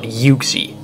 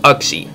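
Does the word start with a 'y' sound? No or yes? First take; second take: yes; no. First: The word starts with a y sound. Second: The word starts with a plain vowel, no y. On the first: The speaker calls it wrong. "If you were supposed to pronounce it Uxie, there would have been a Y in front of the U" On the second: The speaker calls it right. "So it's Uxie"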